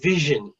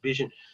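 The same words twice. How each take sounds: First: The word begins with a v sound. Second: The word begins with a b sound. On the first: The speaker calls it right. "So it should be vision" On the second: The speaker calls it wrong. "sounded like B was being used, so it sounded like vision"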